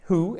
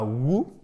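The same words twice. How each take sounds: First: "who" as a slow "hoo", no W; silent W. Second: "who" mispronounced as "woo", W sounded; wrong pronunciation. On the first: Teacher showing students the right "who" with silent W. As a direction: breathe an H into "who", W left silent. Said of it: "le W ne se prononce pas". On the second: Teacher showing students the faulty "who" with sounded W. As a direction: start "who" on a W instead of H. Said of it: "et pas who". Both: Shown as a demonstration.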